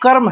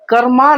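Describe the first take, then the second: First: The word ends on the consonant m. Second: The word ends with an added a vowel. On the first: The speaker calls it right. "जो कर्म है वो कर्म है" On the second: The speaker calls it wrong. "कर्मा नहीं है"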